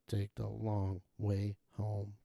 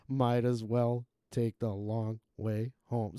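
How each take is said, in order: First: Flat, slow monotone, lower and quieter. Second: Slow, flat, tuneless line; monotone voice. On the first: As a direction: drone it with no tune. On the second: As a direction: drone it out like a bored singer. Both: Retold or imitated. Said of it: "most monotone voice".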